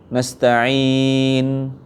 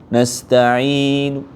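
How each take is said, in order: No difference in how they are said.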